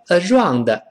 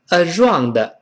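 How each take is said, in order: No difference in how they are said.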